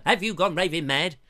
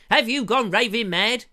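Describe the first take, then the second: First: Hancock quote. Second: Louder, higher Hancock line; a hint of Tony Hancock; Hancock impression. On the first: Retold or imitated. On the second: Host quotes Hancock's Half Hour, pitched up and louder. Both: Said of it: "Hancock's half hour".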